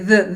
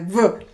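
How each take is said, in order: First: The sound is made with the tongue between teeth. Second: The sound is made with the tongue kept inside. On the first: "and you say the" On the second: "we talk like this. This, this is my v"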